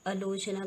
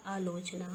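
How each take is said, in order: First: आलोचना with short first a, alochna; wrong pronunciation. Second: आलोचना with long first aa, aalochna; correct pronunciation. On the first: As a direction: shorten the opening vowel of आलोचना. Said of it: "का क्या होता है हमारा?". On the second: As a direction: lengthen the opening vowel of आलोचना. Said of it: "क्या होता है हमारा?". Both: Shown as a demonstration.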